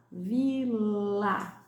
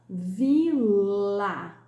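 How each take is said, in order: First: Said in the usual way. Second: Vila said louder, open i and a clearly sounded; loud teacher demo of Vila; open vowel demo. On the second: Shown as a demonstration. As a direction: sound out Vila loudly for the class. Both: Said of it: "Som aberto".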